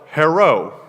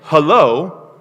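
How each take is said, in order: First: It is said without a clear L sound. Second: It is said with a clear L sound. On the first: "what do they say? ... that's stereotyped" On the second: "if you say hello"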